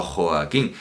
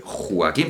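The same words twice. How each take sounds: First: "Joaquín" as Jo-a-quín, o kept a full vowel; careful hiatus. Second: "Joaquín" said as Jua-quín, in two syllables; vulgar diphthong. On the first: Teacher contrasting pronunciations, giving the careful three-syllable Jo-a-quín. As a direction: keep o and a apart in "Joaquín". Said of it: "pero no". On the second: Teacher contrasting pronunciations, giving the vulgar Jua-quín with a diphthong. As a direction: merge o and a of "Joaquín" into "wa". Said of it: "la pronunciación vulgar sí que sería un diptongo". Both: Shown as a demonstration.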